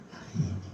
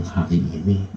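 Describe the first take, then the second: First: Hari ini repeated much softer, almost under the breath; hushed repetition for weight; quiet echo. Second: Said in the usual way. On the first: Shown as a demonstration. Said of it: "Kalau Tuhan bilang hari ini".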